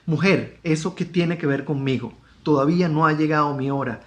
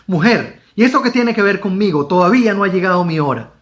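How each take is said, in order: First: It is read in a plain, neutral tone. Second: It is read in a negative, refusing tone.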